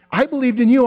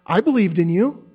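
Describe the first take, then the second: First: Higher and louder, leaning hard on you; emphatic Jesus. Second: Said in the usual way. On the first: Acted. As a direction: press the word you with pleading insistence.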